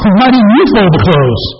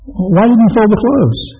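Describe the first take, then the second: First: It is asked in a harsh, accusing tone. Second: It is asked in a calm, gentle tone. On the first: The speaker is blaming and frustrated. The speaker calls it wrong. "As opposed to" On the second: The speaker is genuinely concerned and asking. The speaker calls it right. "It's a whole lot better to say"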